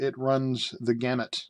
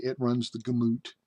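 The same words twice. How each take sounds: First: Said in the usual way. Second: "gamut" said as "guh-MOOT"; buddy's mispronunciation. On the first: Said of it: "or as my old buddy Gary would say". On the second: Retold or imitated. Quoting his old buddy Gary, gamut mispronounced as guh-MOOT. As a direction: stress the second syllable of "gamut", rhyming with boot. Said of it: "a P H D in mispronunciation".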